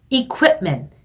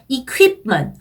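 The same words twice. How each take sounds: First: The middle is said with a 'koo' sound. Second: The middle is said with a 'kyoo' sound. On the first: The speaker calls it right. "쿠 이런 발음을 해주셔야 돼요" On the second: The speaker calls it wrong. "equipment 아니고"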